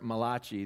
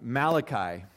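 First: The name is said in an Italian-sounding way. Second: The name is said the usual English way.

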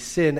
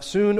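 First: The vowel is a short 'i' sound. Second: The vowel is a long 'oo' sound. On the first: "some pronunciations here would be sin, as in synthesis" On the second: "Soon, I know it looks like sun"

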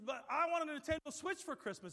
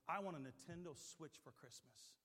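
First: It is said loudly, almost yelling. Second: It is said at a normal, quiet volume.

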